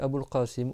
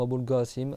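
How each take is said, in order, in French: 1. Qasim commence par un son q profond et guttural. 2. Qasim commence par un son g dur.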